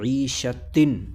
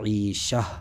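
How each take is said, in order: First: The word ends with a t sound and nunation. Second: The word ends with a silent h sound. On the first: The reciter continues without stopping. "गोल ता आ रही है आखिर में" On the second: The reciter stops on this word. "इस पर हमने आयत कर दी तो ये हो जाएगा"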